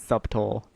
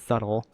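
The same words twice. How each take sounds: First: The b is pronounced in the middle. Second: The b is silent in the middle. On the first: It is said that way as a joke. The speaker calls it wrong. "I pronounce it subtle, ir- ironically" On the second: It is the standard pronunciation. The speaker calls it right. "because I know it's subtle"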